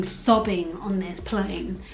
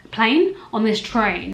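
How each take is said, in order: First: Said in the usual way. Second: Surprised self-correction. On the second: Real, not acted. To the viewers, noticing her own slip, a quick puzzled rise. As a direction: catch the slip with "Plane?".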